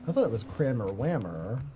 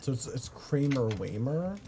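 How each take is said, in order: First: "Kramer Whammer" with short a, as in "cram"; name pronunciation. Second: "Kramer Waymer" with long ay vowels, as in "day"; name pronunciation. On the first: Comparing friend's name versions, "Kramer Whammer" with short a. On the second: Checking how friend's name is said, "Kramer Waymer" with ay sounds. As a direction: say "Kramer Waymer" rhyming both with "lay". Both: Shown as a demonstration.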